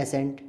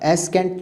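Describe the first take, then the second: First: "एसेंट" with S only, no K; correct pronunciation. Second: "एस्केंट" with a K after S; wrong pronunciation. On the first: Teacher presenting the third word, correctly pronounced. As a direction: say "एसेंट", C silent. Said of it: "अब एस्केंट तो नहीं". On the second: Teacher showing how not to say it, mispronounced. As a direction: sound a hard C in "एस्केंट". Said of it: "तो नहीं कह रहे". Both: Shown as a demonstration.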